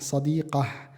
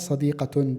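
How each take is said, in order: First: The word ends in a soft h sound. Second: The word ends with a full -tun ending. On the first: The speaker stops after the word. "berarti kita baca dengan ha sadiqah" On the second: The speaker keeps talking after the word. "maka dibaca sadiqatun dengan harakat"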